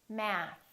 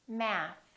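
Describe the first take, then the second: No difference in how they are said.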